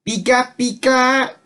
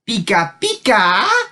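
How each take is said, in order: First: It sounds nervous and frightened. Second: It sounds excited and enthusiastic.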